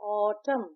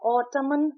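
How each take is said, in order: First: The word ends on the m sound. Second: An n sound is heard at the end. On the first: The speaker calls it right. "हम इसे pronounce करते हैं ऑटम" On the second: The speaker calls it wrong. "हम इसे ऑटमन pronounce नहीं करते"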